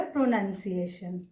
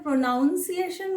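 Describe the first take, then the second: First: "प्रोनंसिएशन" with nun in the middle; correct pronunciation. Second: "प्रोनाउंसिएशन" with noun in the middle; common mispronunciation. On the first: Teacher giving learners the right "प्रोनंसिएशन", with nun inside. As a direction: use a short nun in "प्रोनंसिएशन". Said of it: "इसको बोला जाएगा". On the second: Teacher showing learners the wrong "प्रोनाउंसिएशन", with ow inside. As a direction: say "प्रोनाउंसिएशन" with an ow vowel. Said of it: "वो गलत है". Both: Shown as a demonstration.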